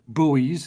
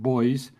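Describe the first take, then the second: First: The word is said with an American pronunciation. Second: The word is said with a non-American pronunciation. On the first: "as you Americans like to call them" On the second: "I would pronounce it buoys"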